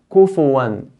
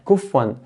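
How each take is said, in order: First: A short U vowel follows the F. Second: No vowel follows the F. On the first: The speaker calls it right. "Fa has a dhamma" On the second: The speaker calls it wrong. "by making the fa sukun"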